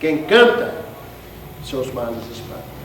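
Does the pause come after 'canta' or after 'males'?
after canta. There is a pause after the word canta. Whoever sings scares away their own troubles.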